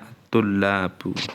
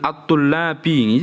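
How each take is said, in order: First: The word ends in a u vowel. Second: The word ends in an i vowel. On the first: The speaker calls it right. "Yang benar sesuai dengan kaidah" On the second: The speaker calls it wrong. "ini nggak boleh ini"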